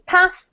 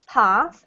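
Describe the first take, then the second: First: It is said in a northern British accent. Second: It is said in an Australian accent. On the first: "from the north of the U K" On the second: "if you're in New Zealand or Australia"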